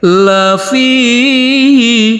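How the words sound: The pitch goes up.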